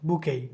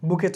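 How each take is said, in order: First: The word ends without a t sound. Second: The word ends with a t sound. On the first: The speaker calls it right. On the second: The speaker calls it wrong.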